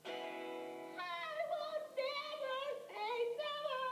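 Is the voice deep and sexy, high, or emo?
high. It is said in a higher, boyish voice.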